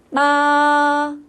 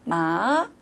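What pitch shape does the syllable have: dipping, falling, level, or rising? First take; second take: level; rising. First: The pitch stays high and level. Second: The pitch rises from middle to high. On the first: "일성은 어떻게 하자고요? 솔솔" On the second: "중간음이 미에서 솔로 올라가는 거죠"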